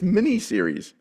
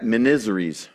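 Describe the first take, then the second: First: The word is said as mini plus series. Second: The word is run together, rhyming with miseries. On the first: The speaker calls it right. "oh, it's mini-series" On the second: The speaker calls it wrong. "my sister always pronounced that miniseries"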